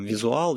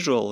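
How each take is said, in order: First: It is pronounced the Russian way. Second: It is pronounced the English way. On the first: "и произносить их так" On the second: "или virtual и visual"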